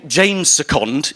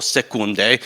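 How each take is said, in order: First: "Second" said as the ordinary English word; English pronunciation. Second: "Seconde" ending in a French "day" sound; French-style pronunciation. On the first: Speaker introducing himself to the audience, "Second" pronounced in English. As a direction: say "Second" the English way, SEK-und. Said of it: "in English". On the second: Speaker giving the other form of his surname, "Seconde" pronounced French-style. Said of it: "in English, or Seconde". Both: Shown as a demonstration.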